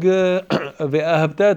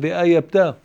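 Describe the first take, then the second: First: The middle consonant is an h sound. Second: The middle consonant is a y sound. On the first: You should love God. The speaker calls it right. "Instead of saying ve'ahabta" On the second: You should make God your enemy. The speaker calls it wrong. "I said ve'ayabta. Chas v'shalom, it's like a curse"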